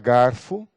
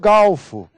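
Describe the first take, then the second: First: The middle consonant is an R sound. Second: The middle consonant is an L sound.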